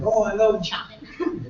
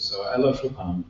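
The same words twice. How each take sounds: First: High, slow affected enthusiasm; mock gushing. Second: Said in the usual way. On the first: Composer fan giving easy answer, mock gushing. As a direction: draw it out high, parodying a gusher.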